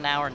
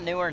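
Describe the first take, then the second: First: The name is pronounced like 'now-er'. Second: The name is pronounced like 'newer'. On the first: "not Nauer" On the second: "not Newer"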